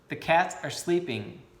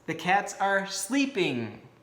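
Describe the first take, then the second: First: It is said plainly, without extra emphasis. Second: It is said with strong, energetic emphasis.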